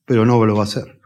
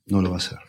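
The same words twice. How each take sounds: First: Said in the usual way. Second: Softer and lower, letting "No lo va a hacer" sink in; quiet lower repeat. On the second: Real, not acted. Preacher warns the congregation, quiet low repeat. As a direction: drop the voice to repeat the warning.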